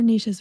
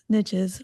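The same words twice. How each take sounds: First: The word does not rhyme with riches. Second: The word rhymes with riches. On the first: "or niches for us Canadians. it doesn't rhyme though when you say it that way" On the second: "riches versus niches"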